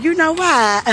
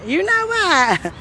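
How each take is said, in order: First: Said in the usual way. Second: Stretched slow and higher; slow, high, drawn out. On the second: Shown as a demonstration. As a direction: drag it out slowly.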